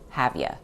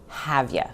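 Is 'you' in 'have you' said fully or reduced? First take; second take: reduced; reduced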